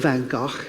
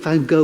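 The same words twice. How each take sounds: First: The name is said the older, traditional way. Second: The name is said the newer, current way. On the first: This is an outdated way of saying the name. The speaker calls it wrong. "I'm outdated" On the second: This is how the name is expected to be said now. The speaker calls it right. "You've got to pronounce it these days"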